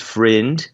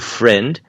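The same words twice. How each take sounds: First: The vowel is more closed, in an Australian accent. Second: The vowel is open, in a standard accent. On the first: "pode ser uma coisa mais friend na Austrália" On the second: "Você tem a pronúncia padrão de amigo"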